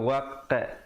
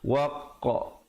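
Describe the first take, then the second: First: The echoed qaf is said with flattened lips. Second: The echoed qaf is said with rounded lips. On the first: The speaker calls it wrong. "jangan waqa, jangan pepeskan" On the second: The speaker calls it right. "bulatkan mulut"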